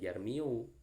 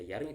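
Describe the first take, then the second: First: The word ends with an added 'u' sound. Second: The word ends in a plain 'i'. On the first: The speaker calls it wrong. "bukan dibaca yarmiu" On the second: The speaker calls it right. "maka dibaca yarmi tetap"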